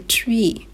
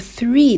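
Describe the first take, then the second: First: It begins with a hard 't' sound. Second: It begins with a soft 'th' sound. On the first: "オランダ人はこのth をt の発音、する人が多いです" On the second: "three だったら"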